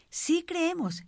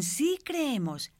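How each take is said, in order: First: Much higher, emphatic mock cry; crowd's conviction, pitched high without shouting; more convinced cry. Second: Higher, drawn-out cry, not really shouted; slow, stretched affirmation from a crowd; mild crowd cry. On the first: Onlookers answer the man about crossing back, high convinced cry. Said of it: "gritaban más convencidos todavía". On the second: Retold or imitated. Onlookers answer the man on the rope, mild drawn-out cry. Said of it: "Todos gritaban".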